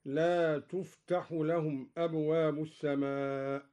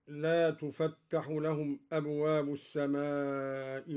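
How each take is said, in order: First: Measured recitation, تفتح with single light t; light taa. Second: Measured recitation, تفتح with open fa and heavy taa; doubled taa. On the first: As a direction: recite تفتح as tuftahu, vowelless f. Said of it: "بسكون الفاء". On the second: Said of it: "وتخفيف التاء هكذا". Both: Shown as a demonstration.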